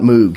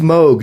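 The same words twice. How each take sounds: First: The vowel sounds like the word moo. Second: The vowel rhymes with the word vogue. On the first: The speaker calls it wrong. "sound like a cow going moo plus G" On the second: The speaker calls it right. "it rhymes with Vogue"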